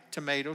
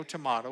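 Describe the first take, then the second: First: Tomato said tuh-MAY-toe; first pronunciation. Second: Tomato said tuh-MAH-toe; alternative pronunciation. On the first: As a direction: say tomato with a long "ay". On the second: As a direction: say tomato with an open "ah". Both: Shown as a demonstration. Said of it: "whichever way you wanna go".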